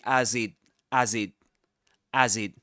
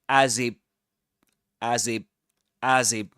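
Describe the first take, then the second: First: The word ends with a clear t sound. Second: The word ends with a p sound. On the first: "Luke doesn't actually say" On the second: "the t sound becomes a p sound"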